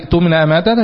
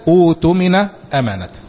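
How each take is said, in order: First: Joined to the previous word, with a glottal stop. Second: Started fresh, with a long 'oo' vowel. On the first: The phrase continues from the previous words. "فليؤدي الذي اؤتمن امانته" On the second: Reading starts at this word. "يبدا اؤتمن امانته"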